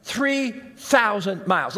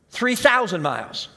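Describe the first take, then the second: First: "Three thousand miles" drawn out slowly; emphatic, spaced words. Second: Said in the usual way. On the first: Real, not acted. Preacher stressing Jonah's long journey, "Three thousand miles" slow and spaced. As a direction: split "Three" from "thousand" with a deliberate pause. Repeats distance to drive it home.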